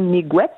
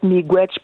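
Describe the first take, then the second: First: The word ends with a t sound. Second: The word ends with a ch sound. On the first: This is the form used in Atikamekw. "en Atikamekw, c'est Miigwet" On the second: This is the form used by other nations. "ça peut être Miigwech pour d'autres nations"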